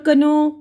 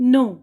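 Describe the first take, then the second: First: A k sound comes before the n. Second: The word starts directly with the n. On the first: The speaker calls it wrong. "ये तो नहीं बोल रहे हैं ना" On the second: The speaker calls it right. "के silent है"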